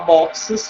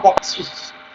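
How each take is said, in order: First: The word ends with an extra vowel syllable. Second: The word ends with only an added s. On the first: The speaker calls it right. "falar boxes é mais confortável" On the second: The speaker calls it wrong. "do que falar boxes"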